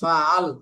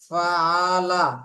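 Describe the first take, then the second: First: The word ends with a consonant sound. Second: The word ends with a vowel sound. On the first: The speaker calls it wrong. "যদি পড়ি ফাআল" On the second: The speaker calls it right. "এখানে ছিল ফাজ ফাআলা"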